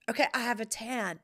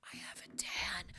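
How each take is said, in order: First: Said in the usual way. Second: Breathy secret whisper. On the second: Shown as a demonstration. Confiding her tan to viewers, whispered. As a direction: whisper it like a confession.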